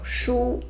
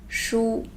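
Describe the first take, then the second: First: 书 breathed out in a whisper. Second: Said in the usual way. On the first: Shown as a demonstration. Teacher whispers 书 to students, then says it aloud. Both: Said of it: "which is book".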